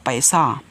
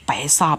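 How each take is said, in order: No difference in how they are said.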